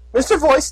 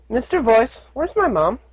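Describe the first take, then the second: First: High filly calling; live filly voice. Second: Recorded playback. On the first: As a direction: call the suit directly. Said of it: "Puppy's voice". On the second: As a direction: filly voice played back from a recording. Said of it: "launched an audio file with Puppy's voice". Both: Acted.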